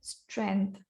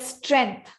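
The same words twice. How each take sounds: First: The word is said flatly, without force. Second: The word is said with force and feeling. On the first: The speaker calls it wrong. "You don't tell strength" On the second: The speaker calls it right. "You tell strength"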